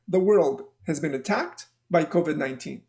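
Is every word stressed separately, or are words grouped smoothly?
grouped. Words run together in smooth thought groups. The speaker calls it right. "We say things in groups. ... the way that we say it is like this"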